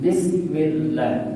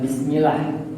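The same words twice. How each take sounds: First: The l sound is held long and doubled. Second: The l sound is short and single. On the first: The speaker calls it right. "Jadi membacanya harus tasydid" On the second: The speaker calls it wrong.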